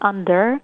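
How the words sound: The word ends with a clear r sound. "في الأمريكاني اللي هي الآر اللي بيسموها rolled under"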